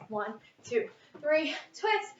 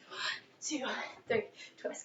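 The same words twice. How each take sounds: First: Said in the usual way. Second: Breathy whisper, counting reps. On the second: Shown as a demonstration. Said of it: "Okay, I'll stop".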